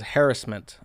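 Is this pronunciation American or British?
British. It is said with a British pronunciation.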